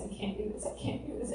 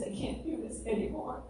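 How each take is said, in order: First: Breathless whisper of giving up; whispered despair. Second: Retold sobbing. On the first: Retold or imitated. Retelling her collapse on the shower floor, whispered. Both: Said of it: "sobbing, saying".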